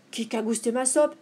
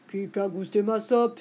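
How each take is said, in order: First: Lightly voiced middle bear, slightly raised pitch; a hint of a medium-sized bear, mildly indignant; middle bear's cry. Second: Lightly voiced big bear, at usual pitch; a hint of Papa Bear complaining; big bear's cry. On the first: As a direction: echo the complaint as the middle bear. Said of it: "s'écria à son tour Médiours". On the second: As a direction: ask it as the big bear, mildly indignant. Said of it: "s'écria Grand Ours". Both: A narrator's reading.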